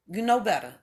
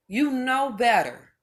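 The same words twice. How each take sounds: First: Said in the usual way. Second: You know better, each word drawn out slowly; slow emphatic repeat. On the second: Shown as a demonstration. Scolding viewers, slowly drawn out You know better. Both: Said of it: "repeated slow for emphasis".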